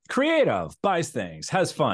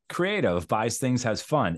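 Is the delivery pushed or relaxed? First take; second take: pushed; relaxed. First: It is delivered with pushed, overly forceful energy. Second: It is delivered with relaxed, lighter energy. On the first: The speaker calls it wrong. "It's just a little bit too much" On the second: The speaker calls it right. "pull it back is just a little less pushing"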